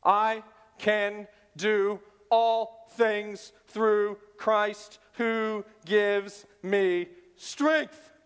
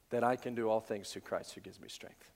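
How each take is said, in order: First: "I can do all things through Christ who gives me strength" slow, stress on "all" and "strength"; slow stressed reading. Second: Said in the usual way. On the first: Shown as a demonstration. Preacher reads verse slowly, stressing "all" and "strength". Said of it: "The emphasis in this verse is not on you".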